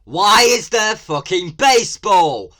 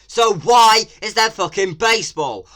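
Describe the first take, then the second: First: Much louder and higher, slow, furious; outraged shout. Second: Much louder and higher, furious disbelief; outraged shout. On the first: Vlogger yelling at the trailer about baseball. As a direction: yell the question in disbelief. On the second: Vlogger yelling again about baseball in the game. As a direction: scream the question at the screen. Ranting at the trailer. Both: Real, not acted.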